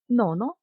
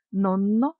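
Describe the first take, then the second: First: Said in the usual way. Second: "Нонно" with a long held N; double N. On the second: Shown as a demonstration. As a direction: linger on the N in "Нонно". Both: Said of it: "з однією або подвоєною літерою".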